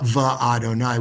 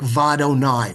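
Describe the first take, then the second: First: The two parts are said as separate words. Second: The two parts are merged into one word. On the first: The speaker calls it wrong. "We don't say Va, Va Adonai" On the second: The speaker calls it right. "we just combine it"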